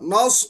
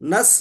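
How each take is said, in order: First: The s sound is heavy and full. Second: The s sound is light and thin. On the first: The speaker calls it right. "सौद को मोटा पढ़ना पड़ता" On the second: The speaker calls it wrong. "नस बोले तो सीन हो गया"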